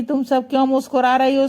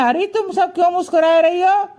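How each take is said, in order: First: Said in the usual way. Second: Raised, lightly voiced Krishna question; Krishna asking. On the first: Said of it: "जैसे ही श्री कृष्ण कहते हैं कि". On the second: Krishna asking the smiling friends why, pitched-up question. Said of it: "तो श्री कृष्ण कहते हैं".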